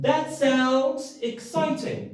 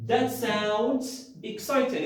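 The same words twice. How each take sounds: First: High, slow and thrilled; modelled enthusiastic reply; excited. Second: Said in the usual way. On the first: Shown as a demonstration. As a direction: sell the excitement of good news.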